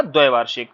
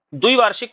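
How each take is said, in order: First: द्वैवार्षिक with वै, low and falling; correct form. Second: द्विवार्षिक with short वि; wrong form. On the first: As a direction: stress the वै in द्वैवार्षिक. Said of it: "शुद्ध क्या होता है आपका". (सही शब्द द्वैवार्षिक, वै पर ज़ोर) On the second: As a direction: show the mistaken द्विवार्षिक. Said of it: "द्विवार्षिक कुछ नहीं होता है". (गलत शब्द द्विवार्षिक) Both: Shown as a demonstration.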